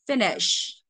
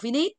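First: The stress is on the first syllable. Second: The stress is on the second syllable. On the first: The speaker calls it right. "nó rơi vào một cơ mà" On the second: The speaker calls it wrong. "Thứ nhất thả trọng âm sai. Thứ hai thành dấu sắc"

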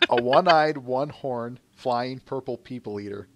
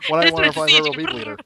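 First: The phrase is said at an ordinary speed. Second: The phrase is said quickly and rushed. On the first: "Say it again" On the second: "Said faster"

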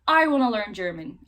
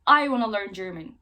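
First: 'Want to' is reduced to 'wanna'. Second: The same.

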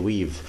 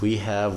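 First: It is said as one contracted word. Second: It is said as two full words. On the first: "we say we've"

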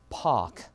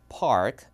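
First: It is said in a British accent without r. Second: It is said in an American accent with r. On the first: "영국에서는 R 발음 빼보세요" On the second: "미국에서는 당연히 park 이거고요"

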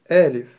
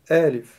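The two takes are said the same way.

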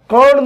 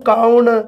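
First: The vowel is one steady sound. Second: The vowel glides from 'a' to 'u'. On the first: "ਕੌਣ ਨੂੰ" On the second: "ਔ ਦੀ ਅਣ ਹੋਂਦਾ"

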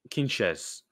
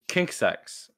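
First: The name ends with a 'ches' sound. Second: The name ends with a 'ksex' sound. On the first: The speaker calls it right. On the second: The speaker calls it wrong.

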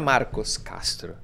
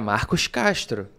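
First: It is said in a plain local accent. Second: It is said in a Rio de Janeiro accent. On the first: The speaker calls it wrong. "mas o meu nome não é Marcos Castro" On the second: The speaker calls it right. "porque eu fui registrado no Rio de Janeiro"

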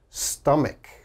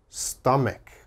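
Both takes have the same delivery.

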